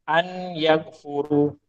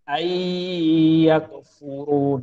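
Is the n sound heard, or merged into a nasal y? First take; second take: heard; merged. First: The n sound is clearly pronounced before y. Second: The n merges into a nasalized, lengthened y. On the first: The speaker calls it wrong. "salah lah tu. tu tajwid yang salah" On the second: The speaker calls it right. "tajwid yang betul ayyakfuru. Dengung dua harakat"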